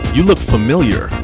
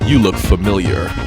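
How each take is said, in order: First: The voice is higher and more upbeat. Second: The voice is lower and slower. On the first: "a little higher, a little bit more, you know, up tempo" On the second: "so that's one tone of voice"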